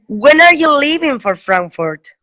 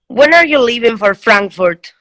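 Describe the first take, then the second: First: The stress is on leaving. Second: The stress is on Frankfurt.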